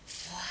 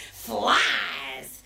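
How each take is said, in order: First: Flies breathed very softly and low; hushed. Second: Said in the usual way. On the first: Acted. Chameleon whispers the ingredient, very soft. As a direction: let flies barely come out, low and hushed. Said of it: "said the chameleon". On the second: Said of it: "said the fox".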